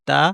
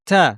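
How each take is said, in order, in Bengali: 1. t নরম, এতে বাতাসের কোনো ঝলক নেই। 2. t শক্ত, এতে বাতাসের একটি ঝলক থাকে। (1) "বাংলায় যে ত আমরা বলে থাকি এটা নরম হয়" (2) "একটু শক্ত করে, এবং এর সাথে একটু বাতাস আছে"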